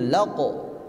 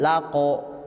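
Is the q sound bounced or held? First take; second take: bounced; held. First: The q sound is released with a jolt. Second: The q sound is held without a jolt. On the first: The speaker calls it right. "Laqo ada hentakan" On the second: The speaker calls it wrong. "Jangan laqo"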